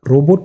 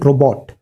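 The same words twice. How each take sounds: First: The second syllable sounds like boat. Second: The second syllable sounds like pot. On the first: The speaker calls it wrong. "रोबोट नहीं बोलते" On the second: The speaker calls it right. "रो बॉट जो होता है ये पॉट की तरह बोलना है"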